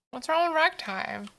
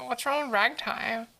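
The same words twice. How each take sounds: First: Higher mock-offended question; playfully affronted What's wrong with ragtime; indignant. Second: Said in the usual way. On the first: Real, not acted. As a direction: defend ragtime, pretending offense. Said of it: "repeat asked higher". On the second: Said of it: "asks again, higher".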